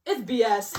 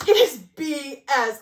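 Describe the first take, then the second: First: Said in the usual way. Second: "It is B S" spelled out slowly and louder, each word punched; emphatic slow stress. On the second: Shown as a demonstration. Vlogger insisting to viewers, "It is B S" slow and hard. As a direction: hammer out "It is B S" word by word.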